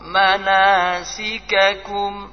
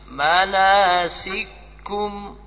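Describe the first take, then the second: First: The two k sounds are kept separate. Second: The two k sounds merge into one. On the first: This follows the majority way of reading. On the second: This follows one school's way of reading. "Ada kira'ah di idgham, kira'ah susi"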